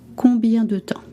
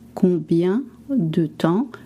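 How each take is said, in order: First: The phrase is said at natural fast speed. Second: The phrase is said slowly and carefully.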